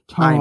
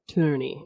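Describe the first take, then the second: First: The word is said in the borrowed accent. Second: The word is said in the speaker's usual accent. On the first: "random words come out in random accents" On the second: "I usually say tourney"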